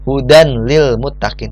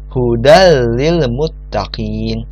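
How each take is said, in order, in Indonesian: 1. Huruf nun dibaca terpisah sebelum huruf lam. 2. Huruf nun melebur langsung ke bunyi huruf lam. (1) "tidak seperti itu" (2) "tanwinnya langsung melebur ke huruf selanjutnya"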